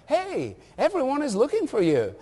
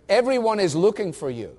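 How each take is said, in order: First: It sounds cheerful and friendly. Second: It sounds impatient and annoyed.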